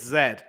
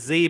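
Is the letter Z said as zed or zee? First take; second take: zed; zee. First: The letter is said as zed. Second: The letter is said as zee. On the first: The speaker calls it right. "it's Z" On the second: The speaker calls it wrong. "The Z business does not fly"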